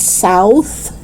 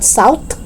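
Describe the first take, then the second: First: Tongue out to close "south"; TH sound. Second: "south" as "sowt"; hard T closing "south". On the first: Teacher correcting learners, "south" with clear TH. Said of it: "It's south". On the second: Teacher showing learners the mistake, "south" with final T. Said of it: "It's not south". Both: Shown as a demonstration.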